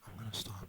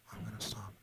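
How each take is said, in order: Both takes have the same delivery.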